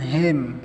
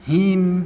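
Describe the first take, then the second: First: The final vowel is an 'eh' sound. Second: The final vowel is a clear 'ee' sound. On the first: The speaker calls it wrong. "bukan hem" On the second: The speaker calls it right. "perjelas i-nya itu ya"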